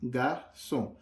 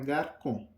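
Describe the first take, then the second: First: The middle consonant is an s sound. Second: The middle consonant is a k sound. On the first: The letter has a cedilla. The speaker calls it right. "इसने क को स बना दिया" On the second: The letter has no cedilla. The speaker calls it wrong. "अगर ये सेदी यहाँ नहीं होता तो ये होता गारकों"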